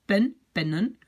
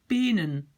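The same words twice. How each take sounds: First: Pen, pennen with a short, open E; short vowel kept. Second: Penen with a long, closed E, like "pay-nen"; wrong long vowel. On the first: Teacher corrects the plural, short E in pen, pennen. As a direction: keep the first E of pennen short. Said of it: "je dois le garder court". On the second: Teacher shows a single-N plural gone wrong, long E in penen. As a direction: stretch the first E of penen. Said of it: "C'est pas bien". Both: Shown as a demonstration.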